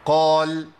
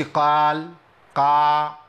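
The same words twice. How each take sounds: First: قال with heavy qaf and lips near each other; partly opened qaf. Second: قال with the qaf opened too wide; fully opened qaf. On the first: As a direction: chant قال long, opening only partly. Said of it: "جزئي". (قال بانفتاح جزئي في القاف) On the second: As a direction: chant قال long with a gaping alif. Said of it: "ما عملتش انفتاح كامل كده". (قال بانفتاح كامل زائد) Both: Shown as a demonstration.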